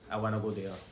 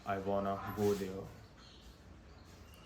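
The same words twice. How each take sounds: First: It is spoken at a normal, quicker pace. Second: It is spoken slower in a deeper voice. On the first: "ये it's okay से था" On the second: "अब मैं इसको बोल रहा हूँ"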